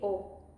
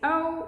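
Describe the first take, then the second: First: The O vowel sounds short and pure. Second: The O vowel sounds English and gliding. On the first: The speaker calls it right. "we say O. Very punctual O" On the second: The speaker calls it wrong. "We don't say O"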